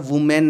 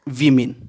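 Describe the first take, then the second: First: The first vowel sounds like 'oo'. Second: The first vowel sounds like 'ee'. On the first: The speaker calls it wrong. "वुमेन नहीं है" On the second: The speaker calls it right. "W O को भी वी बोला जाएगा"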